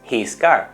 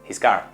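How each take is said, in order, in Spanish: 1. La palabra 'his' se dice en su forma plena. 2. La palabra 'his' es débil, con la h casi perdida. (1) "ya no es his car" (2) "sino his car"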